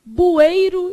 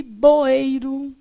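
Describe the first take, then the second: First: "Bueiro" with U in the first syllable; first variant. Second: "boeiro" with O in the first syllable; second variant. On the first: Teacher listing variants, "Bueiro" slowly with BU. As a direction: stretch "Bueiro" loudly, starting BU. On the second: Teacher listing variants, "boeiro" slowly with BO. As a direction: stretch "boeiro", starting BO. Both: Shown as a demonstration. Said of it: "O que mais que você pode ter?".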